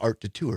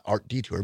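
First: It is said the fancier way, de Tour. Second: It is said like the plain word detour. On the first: The speaker calls it right. "because it sounds fancier" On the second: The speaker calls it wrong. "Not Art Detour"

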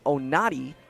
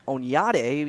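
First: The middle has a plain 'n' sound. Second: The middle has a 'ny' sound. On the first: This is an accepted simplified pronunciation. "saying Onati when they're trying to pronounce it without the Enye" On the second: This is the name's official pronunciation. "the real pronunciation is Onyate"

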